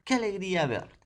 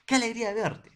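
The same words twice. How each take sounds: First: High, loud glad greeting; joyful exclamation. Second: Much higher and louder, thrilled to meet; delighted exclamation. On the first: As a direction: show the delight of the exclamation. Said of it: "Miren, ¿ah?". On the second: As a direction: cry it out like meeting an old friend. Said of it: "Hace mucho tiempo que no sé nada de ti". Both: Shown as a demonstration.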